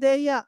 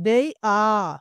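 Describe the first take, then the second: First: 'They are' is contracted to one short syllable. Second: 'They are' is said as two full words.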